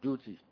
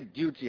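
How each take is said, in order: First: The word is said in an American accent. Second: The word is said in the speaker's home accent. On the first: "I think Americans say duty" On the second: "We say duty at home"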